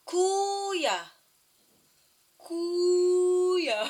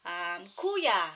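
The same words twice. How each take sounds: First: "Kuya" called out higher and louder, a drawn-out fall. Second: Said in the usual way. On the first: Shown as a demonstration. Mother showing her toddler how to say "Kuya" louder, calling out. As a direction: belt out "Kuya" so the toddler copies it.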